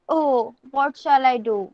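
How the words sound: It is said with a frightened tone.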